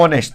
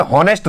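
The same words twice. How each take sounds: First: ऑनेस्ट starting straight on the vowel, no h; silent h. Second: हॉनेस्ट with a clear h sound at the start; wrong reading with h. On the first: Teacher giving students the right reading ऑनेस्ट with a silent h. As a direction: drop the h and say ऑनेस्ट. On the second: Teacher showing students the misreading हॉनेस्ट with a sounded h. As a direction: pronounce the h in हॉनेस्ट, the way it looks on paper. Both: Shown as a demonstration. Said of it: "एच silent होता है".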